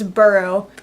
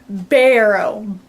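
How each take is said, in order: First: The first vowel sounds like the 'u' in 'burr'. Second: The first vowel sounds like the 'a' in 'bat'. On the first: "a lot of people call it Burrow" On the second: "I always wanted to say Barrow because it's the B A"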